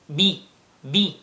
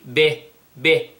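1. الحركة بعد الباء كسرة واضحة. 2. الحركة بعد الباء ليست كسرة واضحة. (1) "bi bi, that's the right pronunciation" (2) "Don't say be be"

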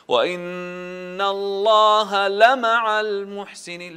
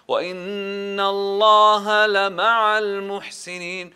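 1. توجد قفزة نغمية حادة على 'lama'a'. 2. لا توجد قفزة نغمية حادة على 'lama'a'. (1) "القفزة" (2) "لا"

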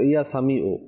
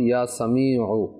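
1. শেষ ব্যঞ্জনটি সাধারণ হামজা। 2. শেষ ব্যঞ্জনটি গলার গভীর থেকে আসা আইন। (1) "এখন অনেক ইয়া সামি ও এমনি পড়লে তো লাস্টে যে আইন রয়েছে আইনের উচ্চারণ হবে না, হামজার উচ্চারণ হয়ে যাচ্ছে" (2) "উচ্চারণ সঠিকভাবে করতে হবে"

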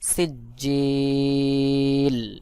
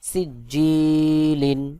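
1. শব্দটি লম্বা, টানা স্বরধ্বনি দিয়ে শেষ হয়। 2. শব্দটি ছোট স্বরধ্বনি ও 'n' দিয়ে শেষ হয়। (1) "যখন আপনি থেমে যাবেন তখন 1 আলিফের জায়গায় 3 আলিফ টান দিতে হবে" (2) "লাম 2 জের লিন"

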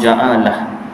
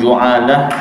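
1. Vokal pertama adalah bunyi a. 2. Vokal pertama adalah bunyi u.

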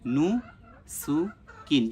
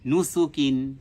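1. এটি ধীরে ধীরে, অক্ষরে অক্ষরে উচ্চারণ করা হয়। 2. এটি দ্রুত, একটি মিলিত শব্দের মতো উচ্চারণ করা হয়।

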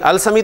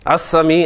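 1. article का L साफ बोला जाता है। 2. L, दोहरे S की आवाज़ में मिल जाता है।

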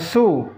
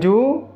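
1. Suku kata ini diawali bunyi s. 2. Suku kata ini diawali bunyi j. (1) "jangan su" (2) "Jangan ju"

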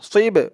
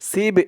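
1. "s" ধ্বনিটি মুখ ভরে ভারী। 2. "s" ধ্বনিটি হালকা ও পাতলা। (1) "সদের উচ্চারণটা করার সময় মুখটা একটু ভরপুর হয়ে যাবে" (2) "সিব এরকম বলা যাবে না, সিব বললে কিন্তু সিনের উচ্চারণ চলে আসবে"

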